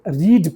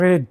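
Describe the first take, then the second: First: The vowel is long, as in 'reed'. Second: The vowel is short, as in 'red'. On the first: It is the present form. "जब ये वी वन रहेगा तो इसको रीड पढ़ेंगे" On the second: It is the past form. "जैसे ये वी टू हो जाएगा, पास्ट टेंस में इसका इस्तेमाल होगा, तो उसको पढ़ेंगे रेड"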